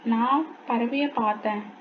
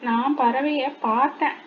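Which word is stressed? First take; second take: நான்; பார்த்தேன். First: The stress falls on the first word. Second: The stress falls on the last word. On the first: It was the speaker, not someone else, who saw the bird. "அப்போ பறவையை பார்த்தது யாரு? நான்" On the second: The speaker only looked at the bird, nothing more. "பறவையை பார்க்க மட்டும்தான் செஞ்சேன் அப்படின்ற மாதிரி"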